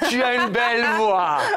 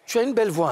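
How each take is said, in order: First: It is said warmly, with visible emotion. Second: It is said flatly, without showing joy.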